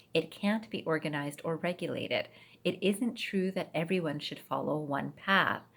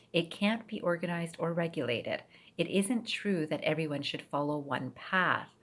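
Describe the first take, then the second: No difference in how they are said.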